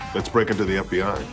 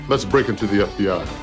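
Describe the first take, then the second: First: It is said plainly, with little energy. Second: It is said loudly, with lots of energy. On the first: The speaker calls it wrong. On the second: The speaker calls it right.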